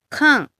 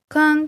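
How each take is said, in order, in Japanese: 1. 音の高さが途中で急に下がります。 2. 高いまま最後まで平らです。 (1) "かんはね、下がる。四声ですね。" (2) "発音が一声、かんってなると"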